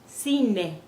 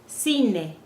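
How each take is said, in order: The two takes are said the same way.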